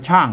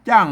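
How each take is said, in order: First: It starts with an aspirated ch sound. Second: It starts with an unaspirated j-like sound. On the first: This is the Central Thai reading. "เปิ้นไทยเปิ้นอ่านว่าช่าง" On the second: This is the Northern Thai reading. "อันเมืองเปิ้นอ่านว่าจ้าง"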